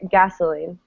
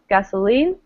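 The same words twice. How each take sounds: First: The stress is on the first syllable. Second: The stress is on the last syllable. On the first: "people all the time say" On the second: "stressing the last syllable"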